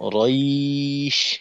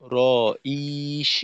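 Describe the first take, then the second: First: The syllable is said in one unbroken stretch. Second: The syllable is broken into two separate parts. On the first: The speaker calls it right. "রইশ এক টানে শেষ হবে।" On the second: The speaker calls it wrong. "এইভাবে দুই অংশ না হয়।"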